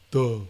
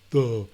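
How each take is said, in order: No difference in how they are said.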